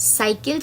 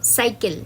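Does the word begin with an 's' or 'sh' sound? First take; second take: s; s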